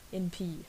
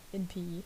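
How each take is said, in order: First: The word en is said reduced and weak. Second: The same.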